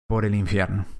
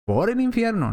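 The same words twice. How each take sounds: First: Said in the usual way. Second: "Por el infierno" repeated much higher, hitting "el"; raised, stressed echo of "Por el infierno"; emphatic repeat. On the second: Shown as a demonstration. Preacher repeats the verse's ending.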